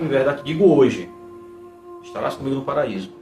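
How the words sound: The pause comes after the word hoje. Today is only when the promise is spoken. The speaker calls it wrong.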